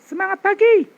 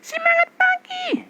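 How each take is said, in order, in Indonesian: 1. Suaranya terdengar lebih penuh dan bergema di dada. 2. Suaranya terdengar tipis dan berasal dari tenggorokan. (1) "Ini sudah suara sini, dada" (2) "Ini masih sini loh"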